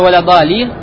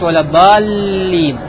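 First: The middle consonant is short and single. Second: The middle consonant is held long and doubled. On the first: The speaker calls it wrong. "вместо" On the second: The speaker calls it right. "говорит"

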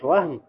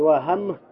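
First: No vowel is sounded between the h and m. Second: A vowel is sounded between the h and m. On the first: It means doubt. "то есть надха стоит сукун" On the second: It means a mistake or oversight. "то есть надха стоит фатха"

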